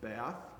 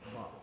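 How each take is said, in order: First: The word is said with an American accent. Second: The word is said with an English accent. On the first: This is how people at home say it. "We would pronounce it Bath" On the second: This is how it must be said in England. "if you're going to be in England, you have to pronounce it Bath"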